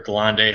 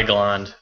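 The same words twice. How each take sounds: First: "Galande" sounded out past the D; alternative pronunciation. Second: "Galand" ending on the D; alternative pronunciation. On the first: Correcting himself on the car's name, "Galande" with a voiced ending. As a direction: say "Galande" with an added final vowel. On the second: Unsure of the car's name, "Galand" cut at the D. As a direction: say "Galand" without a final vowel. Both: Real, not acted. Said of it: "however you pronounce it".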